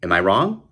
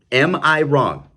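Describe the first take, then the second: First: Said in the usual way. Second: Am I wrong? louder and higher, I stressed; emphatic repeat. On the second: Real, not acted. Host pressing his viewers, a louder higher challenge. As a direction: push hard on I.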